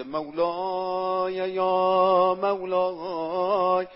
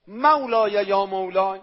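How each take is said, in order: First: Drawn-out, slow sung prayer; slow chanted supplication. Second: Said in the usual way. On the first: Acted. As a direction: chant the words slowly like a lament. (chanted, مناجات آهسته و کشیده)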